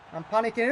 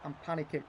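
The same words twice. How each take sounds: First: Louder, rising alarm; said again, louder and more urgent; louder panic. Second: Muttered under the breath; a soft worried aside; quiet admission. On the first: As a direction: let the panic out. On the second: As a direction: say it low to yourself. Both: Real, not acted.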